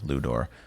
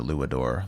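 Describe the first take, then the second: First: The name is said without the extra syllable. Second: The name is said with an extra syllable. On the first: The speaker calls it right. "It probably is Ludor" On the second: The speaker calls it wrong. "I'm adding an extra syllable in there"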